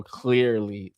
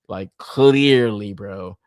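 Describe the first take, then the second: First: Said in the usual way. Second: "clearly" stretched slow and leaned on; drawn-out clearly. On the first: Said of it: "repeated plainly". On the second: Shown as a demonstration. Toy collector to viewers, slow sarcastic drawn-out "clearly". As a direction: drag out "clearly" for a sarcastic verdict. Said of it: "drawn-out mocking emphasis".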